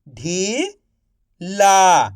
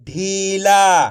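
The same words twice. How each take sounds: First: Slow stretched reading. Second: Said in the usual way. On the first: Shown as a demonstration. Teacher to pupils, slowly stretched. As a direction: draw ढीला out slowly. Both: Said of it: "आप इस तरीके से".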